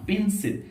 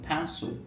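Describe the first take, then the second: First: The p has no puff of air. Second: The p has a strong puff of air. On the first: The speaker calls it wrong. "Not পেন্সিল" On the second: The speaker calls it right. "আমরা যখন ফ্যান্সো"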